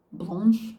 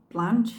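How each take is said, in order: First: Blanche? with a long ah, "blahnsh"; French pronunciation. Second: Blanche? with a flat a, "blanch"; English pronunciation. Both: Shown as a demonstration. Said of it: "I don't really like it in either pronunciation".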